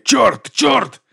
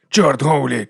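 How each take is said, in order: First: Much higher, louder rising curses; shocked curse. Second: Said in the usual way. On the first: Acted. Watkins, horrified by the stage murder, curses louder and higher. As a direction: fling out the curses higher each time.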